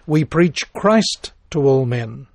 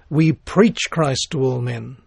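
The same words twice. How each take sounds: First: The stress is on "Christ". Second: The stress is on "preach".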